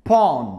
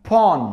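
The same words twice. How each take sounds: No difference in how they are said.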